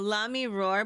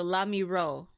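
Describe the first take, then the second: First: "Roar" with the R heard at the end; "Roar" ending in an English R; final R sounded. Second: "Ro" ending open on the vowel; "Ro" like "row", final R left off; last R dropped. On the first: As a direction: say "Lami Roar", closing on an R. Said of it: "but without the last R". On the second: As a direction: say "Lami Ro" with no R at the end. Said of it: "without the last R". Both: Shown as a demonstration.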